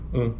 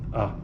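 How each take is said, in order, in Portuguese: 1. A vogal é pronunciada com ressonância nasal. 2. A vogal é pronunciada sem ressonância nasal. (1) "E a vogal nasal, an" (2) "a vogal oral seria A"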